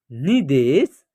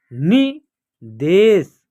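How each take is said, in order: First: Said in the usual way. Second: निदेश drawn out, syllables apart; slow syllable by syllable. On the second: Shown as a demonstration. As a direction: read निदेश slowly in parts. (निदेश धीरे-धीरे टुकड़ों में) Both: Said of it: "या आप direct भी पढ़ सकते हैं".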